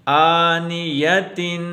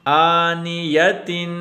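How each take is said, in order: The two takes are said the same way.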